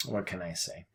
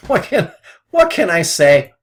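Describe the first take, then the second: First: Low, soft, defeated mumble; quiet shrug in the voice; muttered resignation. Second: Louder, higher, laughing through the words; rueful laughing outburst. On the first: Retold or imitated. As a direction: mutter it like you've given up. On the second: Real, not acted. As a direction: laugh at your own bad luck. Laughs at own losing trade.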